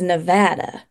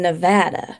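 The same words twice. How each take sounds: First: Nevada is pronounced the way locals say it. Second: The same.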